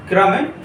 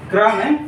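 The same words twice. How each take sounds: The two takes are said the same way.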